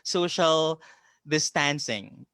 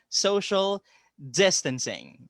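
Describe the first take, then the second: First: The stress is on a later syllable of 'distancing'. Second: The stress is on the first syllable of 'distancing'. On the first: The speaker calls it wrong. "A lot of people call it" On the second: The speaker calls it right. "the accent falls on the first syllable"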